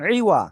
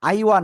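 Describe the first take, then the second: First: The word begins with a plain 'i' sound. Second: The word begins with an 'ai' sound. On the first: The speaker calls it right. "ই ওয়া" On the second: The speaker calls it wrong. "আইওয়া না"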